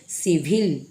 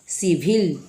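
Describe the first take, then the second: No difference in how they are said.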